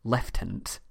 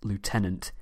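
First: It is said with the British pronunciation. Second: It is said with the American pronunciation.

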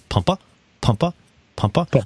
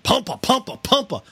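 First: The words are said softly and gently. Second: The words are said hard and forcefully. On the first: The brakes are pumped lightly. The speaker calls it right. "Just gentle little pushes" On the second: The brakes are pumped hard. The speaker calls it wrong.

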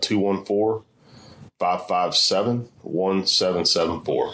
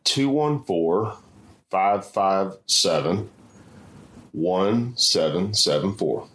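First: The number is said at normal speed. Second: The number is said more slowly.

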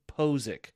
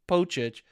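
First: The middle consonant is a z sound. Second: The middle consonant is a ch sound. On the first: The speaker calls it right. "for phonetic spelling, is P-O-H-Z-I-K" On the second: The speaker calls it wrong. "a lot of people pronounce it Pochich"

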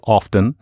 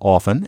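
First: The t in the middle is pronounced. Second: The t in the middle is silent. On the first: "a lot of you like to say often" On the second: "instead of often"

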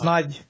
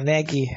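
First: The name is said as one syllable, ending 'j'. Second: The name is said with two syllables, ending 'ee'. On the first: The speaker calls it right. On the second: The speaker calls it wrong.

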